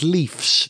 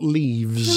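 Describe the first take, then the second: First: The word ends with an f sound. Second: The word ends with a v sound. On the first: It refers to more than one car with that name. The speaker calls it right. "The plural of the car is" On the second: It refers to leaves from a tree. The speaker calls it wrong.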